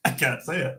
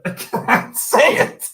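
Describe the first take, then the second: First: Said in the usual way. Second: Wheezing the words out through laughter, higher and louder; can barely get it out for laughing; breathless laugh. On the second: Real, not acted. Giving up on a line to chat, laughing.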